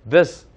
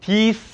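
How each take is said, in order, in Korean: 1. 이 모음은 짧고 이완된 i 소리입니다. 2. 이 모음은 길고 긴장된 ee 소리입니다. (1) "이건 입을 그냥 모은 상태에서 this 예 이렇게 해야 되는 거거든요" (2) "디스 하면서 이렇게 여기다 이렇게 애교살이 잡히지 않습니까? 그럼 틀린 발음입니다"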